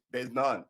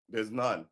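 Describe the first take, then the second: No difference in how they are said.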